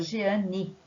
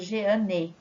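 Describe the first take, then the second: First: The name ends with an I sound. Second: The name ends with a clear E sound. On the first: This is how people actually say it. "com som de I" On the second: This follows the spelling. "ninguém fala Jeane"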